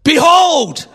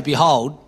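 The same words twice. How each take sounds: First: "Behold" cried out high and loud, like a herald; "Behold" as a loud, high proclamation; proclaimed Behold. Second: Said in the usual way. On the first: Shown as a demonstration. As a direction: announce "Behold" with full force. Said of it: "You've got to say". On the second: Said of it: "Because you can't say".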